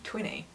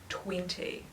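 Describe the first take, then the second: First: The middle T sound is left out. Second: The middle T sound is clearly pronounced. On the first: "because I don't say the T" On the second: "I don't say twenty"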